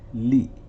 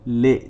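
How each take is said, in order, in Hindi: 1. स्वर एक शुद्ध 'ee' ध्वनि है। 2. स्वर एक 'ay' ध्वनि है। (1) "ला कसरा ली" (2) "ले नहीं होना चाहिए"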